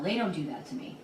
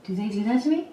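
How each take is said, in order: First: "They don't do that to me" falling firmly at the end; confident denial. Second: "Do they do that to me?" rising at the end; doubting question. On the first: Councilwoman reassuring herself about colleagues, firm falling denial. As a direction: state "They don't do that to me" as a settled fact, dropping in pitch. Shocked denial, then doubting question. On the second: Councilwoman suddenly unsure about colleagues, worried rising question. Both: Acted.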